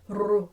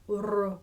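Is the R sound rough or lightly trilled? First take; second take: lightly trilled; lightly trilled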